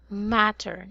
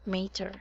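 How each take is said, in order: First: The first vowel is a short A sound. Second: The first vowel is a long A sound. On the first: The speaker calls it right. "It should be a short A" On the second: The speaker calls it wrong. "not mater"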